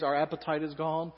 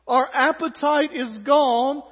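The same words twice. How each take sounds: First: Said in the usual way. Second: Slow, loud, drawn-out moan; milk the complaint like a drama; melodramatic whining. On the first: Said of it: "That phrase". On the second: Acted. Israelites moaning over the manna, melodramatic. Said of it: "A little melodramatic".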